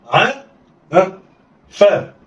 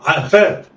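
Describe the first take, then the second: First: "ع" alone, a prompting "ها", then "فاء"; letters sounded apart. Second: "ع فاء" joined in one quick go; snatch "ع فاء" with no pause; snatched together. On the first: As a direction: pause after "ع" before giving "فاء". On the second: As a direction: blend "ع فاء" like one word. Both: Shown as a demonstration. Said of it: "يلا، اخطف".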